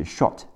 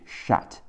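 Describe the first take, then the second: First: "shot" with a rounded British short o; standard pronunciation. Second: American "shot" with an open ah vowel; American pronunciation. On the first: Teacher giving past tense of shoot, rounded-vowel "shot". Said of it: "过去式是shot". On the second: Teacher showing the American version, open-vowel "shot". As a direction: say "shot" like "shaht", American style. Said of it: "美式发音是shot". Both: Shown as a demonstration.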